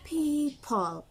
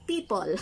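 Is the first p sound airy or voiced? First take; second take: airy; voiced. First: The first p is released with only air. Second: The first p is said with voicing. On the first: The speaker calls it right. "hangin lang dapat" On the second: The speaker calls it wrong. "Sa atin"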